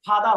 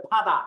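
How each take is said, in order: First: "ফাদা" starting with a loose f; lips apart. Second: "ফাদা" starting with an aspirated p; lips closed first. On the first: Teacher warns students off this error, "ফাদা" with parted lips. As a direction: leave the lips open for the first sound of "ফাদা". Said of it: "ঠোঁটটা ফাঁকা করে". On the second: Teacher gives students the correct version, "ফাদা" from closed lips. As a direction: press the lips, then pop air into "ফাদা". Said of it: "এটা হবে". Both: Shown as a demonstration.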